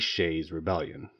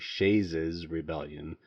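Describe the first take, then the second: First: The possessive adds no extra syllable. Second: The possessive is sounded as an extra syllable. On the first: The speaker calls it right. "It's simply Shays' Rebellion" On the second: The speaker calls it wrong. "we could overpronounce it"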